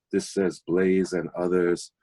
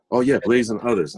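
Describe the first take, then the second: First: Said in the usual way. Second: Higher, louder "Oh, yeah" of delight; light up as you recognize the record; happy recognition. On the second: Retold or imitated. Recognizing record while tidying.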